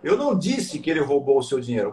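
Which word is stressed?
disse. The stress is on "disse".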